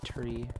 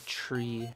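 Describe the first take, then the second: First: The word begins with a plain t sound. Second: The word begins with a ch sound. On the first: "instead of" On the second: "palatalization hits my dialect"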